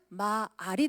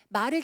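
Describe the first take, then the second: First: The vowel is drawn out long. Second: The vowel is said short and plain.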